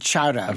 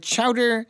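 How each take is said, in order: First: It is said in a Boston accent. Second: It is said in a Midwestern accent. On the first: "in Boston, they pronounce it chowder" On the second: "In the Midwest, we call it chowder"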